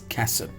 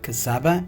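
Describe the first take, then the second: First: The word ends on the 'b' consonant. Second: The word ends with an extra 'a' vowel. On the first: The speaker calls it right. "it's Kasab" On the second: The speaker calls it wrong. "This is not Kasaba"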